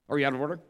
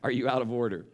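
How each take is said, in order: First: It is said quickly. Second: It is said slowly.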